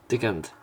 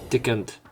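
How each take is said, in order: Both takes have the same delivery.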